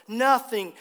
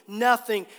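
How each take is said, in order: Both takes have the same delivery.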